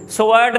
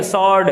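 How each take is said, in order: First: "स्वॉर्ड" as so-werd; two syllables in "स्वॉर्ड", with a w glide; wrong pronunciation. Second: "स्वॉर्ड" in one syllable, sord; correct pronunciation. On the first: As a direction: say "स्वॉर्ड" with the w sounded. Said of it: "नहीं होता". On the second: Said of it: "W silent होती है". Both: Shown as a demonstration.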